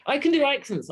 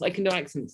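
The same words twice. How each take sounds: First: Scottish accent. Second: Said in the usual way. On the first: Shown as a demonstration. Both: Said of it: "I can do a Scottish accent like that".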